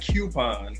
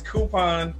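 First: The first syllable is said as 'kyoo', like Q. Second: The first syllable is said as plain 'koo'. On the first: The speaker calls it wrong. "Don't y'all be out there saying coupon. ... There's no Q on this word" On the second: The speaker calls it right. "It's coupon"

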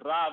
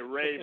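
First: The word has a Finnish-style, foreign-sounding pronunciation. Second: The word has an American English pronunciation. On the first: This sounds like a foreigner saying it. "it sounds like some guy from I don't know where that's pronouncing it" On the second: This is how people in North America say it. "in North America, you need to say rave or something like that"

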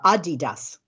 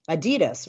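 First: The name is said the way it's said overseas. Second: The name is said the usual American way.

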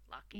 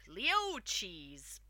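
First: The name sounds like 'Lock-keys'. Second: The name sounds like 'Leo-cheese'. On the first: The speaker calls it right. "if you listen to the audio tapes, which I recommend, it's Lockheed's" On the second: The speaker calls it wrong. "The first time I saw it, I was like"

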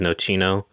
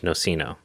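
First: The word is said with an Italian pronunciation. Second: The word is said with an English pronunciation. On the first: "the Italian is Nocino" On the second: "the English is Nocino"

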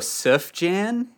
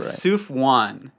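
First: The second syllable starts with a y sound. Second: The second syllable starts with a w sound. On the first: This is the usual pronunciation. The speaker calls it right. "normally the pronunciation, people go Souf Jan" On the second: This is a mistaken pronunciation from reading it. The speaker calls it wrong. "We were going right. Souf Wan"

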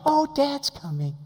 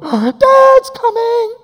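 First: It is said casually, without alarm. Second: It is said with a gasp, in alarm.

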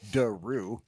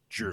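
First: The name begins with a plain D sound. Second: The name begins with a J-like sound. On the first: The speaker calls it wrong. "you don't say Daru" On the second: The speaker calls it right. "you actually say it with a J"

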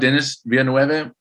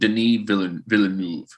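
First: The name is pronounced in an English way. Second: The name is pronounced in a French way. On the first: The speaker calls it wrong. "I thought Denis Villeneuve" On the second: The speaker calls it right. "it turns out he's French"

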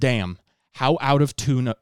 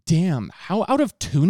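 First: It is said in the speaker's normal voice. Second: It is said in a put-on imitating voice.

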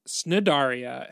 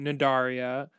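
First: The word begins with an s sound. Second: The word begins with an n sound. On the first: The speaker calls it wrong. "Snidaria has been wrong" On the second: The speaker calls it right. "the C is silent ... it's closer to Nidaria"

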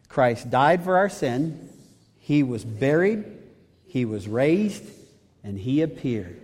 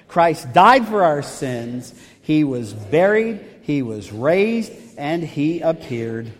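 First: It is said in a plain, even voice. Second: It is said loudly with strong conviction.

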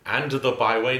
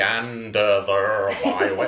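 First: The D at the end of 'and' is clearly sounded. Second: The D at the end of 'and' is dropped. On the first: The speaker calls it right. "I also want the D on the and" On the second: The speaker calls it wrong. "Then it's not going to be and the byway. I don't want that"

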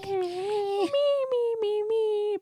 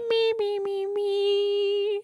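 First: It is said in a normal voice. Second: It is said in a Cartman-like voice.

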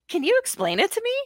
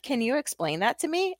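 First: The question is delivered in a wide-eyed innocent tone. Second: The question is delivered in a sarcastic tone. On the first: The speaker seems genuinely confused. "when I can put on my biggest, widest, like, gosh, I don't get it" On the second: The speaker is mocking the person. "And now I sound really sarcastic right now"

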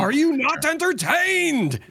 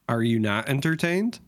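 First: It is said loudly, with strong feeling. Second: It is said quietly, without much feeling.

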